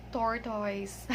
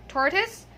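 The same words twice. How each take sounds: First: "tortoise" as TOR-toys, said softer; wrong pronunciation. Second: Slow "tortoise" as TOR-tus; correct pronunciation. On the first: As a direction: give "tortoise" a full OY ending, quietly. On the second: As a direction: end "tortoise" on a short, weak "tus". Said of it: "not tortoise". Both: Shown as a demonstration.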